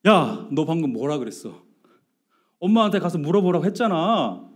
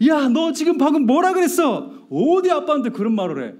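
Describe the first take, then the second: First: Contained retold scolding; rising irritation. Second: High, loud acted scolding; angry outburst. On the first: Dad to son who snubbed him, rising irritation. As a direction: scold with anger just starting to rise. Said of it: "뚜껑이 확 올라오는 거예요". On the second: Dad to son who talked back, angry outburst. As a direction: blow the lid off, re-enacting an angry dad. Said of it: "뚜껑이 이제는 확 열리는 거예요".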